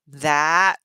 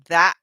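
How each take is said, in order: First: The final T is clearly released. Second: The final T becomes a glottal stop. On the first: "you can hear the T at the end of the that" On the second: "It's more of a glottal stop"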